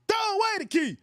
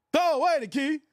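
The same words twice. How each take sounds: First: Defiant shout. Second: Said in the usual way. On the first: Real, not acted. Defiant boast to the chat.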